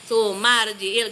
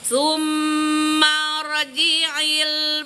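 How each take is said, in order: First: The r sound is thin and carelessly said. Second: The r sound is thick and heavy. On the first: The speaker calls it wrong. "jangan ngasal gini. Sumarji'il gak boleh" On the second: The speaker calls it right. "Tapim itu tebal"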